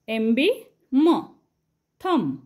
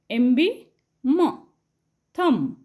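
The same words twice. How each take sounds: The two takes are said the same way.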